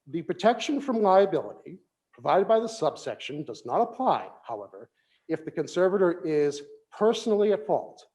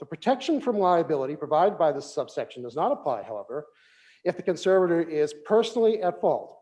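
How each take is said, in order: First: It is read at a slower pace. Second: It is read at a faster pace.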